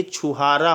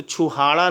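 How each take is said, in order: First: छुहारा with a clear र; correct pronunciation. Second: छुहाड़ा with a flapped ड़; wrong pronunciation. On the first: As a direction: say छुहारा the right way, with र. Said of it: "ये छुहारा होता है". (छुहारा में र, सही उच्चारण) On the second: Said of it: "तो छुहाड़ा नहीं होता है". (छुहाड़ा में ड़, गलत उच्चारण) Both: Shown as a demonstration.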